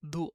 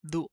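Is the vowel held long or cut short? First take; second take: short; short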